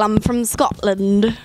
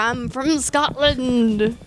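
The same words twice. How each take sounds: First: It is spoken in a Scottish accent. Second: It is spoken in a pirate accent. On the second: "Like a pirate accent"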